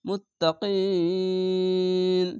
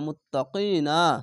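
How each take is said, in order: First: The word ends on a stopped consonant. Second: The word ends with a short vowel.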